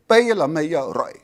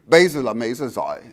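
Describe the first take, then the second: First: It has a southern Vietnamese accent, giờ with y. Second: It has a northern Vietnamese accent, giờ with z. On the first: "In the south"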